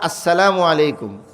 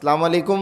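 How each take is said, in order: First: Every syllable, including the opening, is said. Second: The opening and linking vowels are dropped. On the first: The speaker calls it right. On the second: The speaker calls it wrong.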